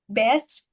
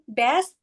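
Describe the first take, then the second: First: The final t sound is clearly pronounced. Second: The final t sound is dropped. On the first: The speaker calls it right. "instead of best" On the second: The speaker calls it wrong. "saying best instead of best"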